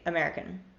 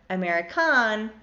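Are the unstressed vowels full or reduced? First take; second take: reduced; full. First: The unstressed vowels are reduced to schwa. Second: The unstressed vowels are full and tense. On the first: The speaker calls it right. "say American" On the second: The speaker calls it wrong. "I don't say American or American"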